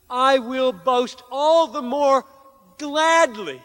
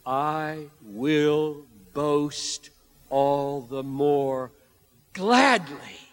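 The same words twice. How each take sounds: First: High, loud, fervent declaration; impassioned proclamation. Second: Said in the usual way. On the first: Shown as a demonstration. Preacher voicing Paul's glad boast in weakness, high fervent. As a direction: proclaim it with full joy. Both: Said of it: "And respond like this".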